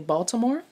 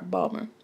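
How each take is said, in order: First: All the syllables of the name are said. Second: The name is squeezed into two syllables. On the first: The speaker is not from the area. "that don't live in Maryland might say Baltimore" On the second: The speaker is from the area. "it's said if as if it were spelled B A W L M E R"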